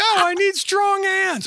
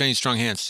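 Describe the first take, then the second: First: The phrase is shouted loudly and urgently. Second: The phrase is said flatly without emotion. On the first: The speaker urgently needs help. "So I just screamed out" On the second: It is a routine request, used as a running joke. "you wouldn't even say it with any kind of emotion"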